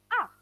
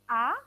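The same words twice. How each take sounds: First: The pitch falls sharply from high to low. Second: The pitch rises from middle to high. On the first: "turun atau dihentakkan" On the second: "dia naik"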